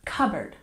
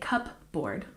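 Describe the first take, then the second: First: No P sound is pronounced in the middle. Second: A P sound is pronounced in the middle. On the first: The speaker calls it right. "we don't say the P sound" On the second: The speaker calls it wrong. "We don't say cupboard"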